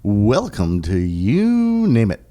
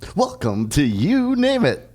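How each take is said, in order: First: It is said in a relaxed, low-energy way. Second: It is said with more energy.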